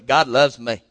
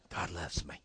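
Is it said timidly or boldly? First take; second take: boldly; timidly. First: It is said boldly and confidently. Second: It is said timidly and hesitantly.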